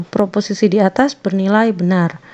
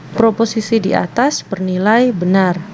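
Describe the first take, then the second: Both takes have the same delivery.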